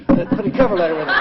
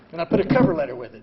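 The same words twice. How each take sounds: First: Louder, faster, laughing through it; laughing repeat. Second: Said in the usual way. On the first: Real, not acted. Telling the audience about his letter, laughing.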